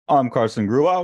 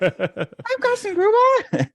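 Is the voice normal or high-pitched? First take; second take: normal; high-pitched. First: It is said in his normal voice. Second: It is said in a squeaky helium voice.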